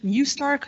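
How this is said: The name is said with an English pronunciation. "we haven't found the right pronunciation of our name yet in English"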